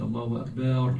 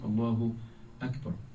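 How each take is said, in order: First: The b sound in Akbar is held long. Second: The b sound in Akbar is kept short. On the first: The speaker calls it wrong. "make the ba a little longer" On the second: The speaker calls it right. "The right way to say is"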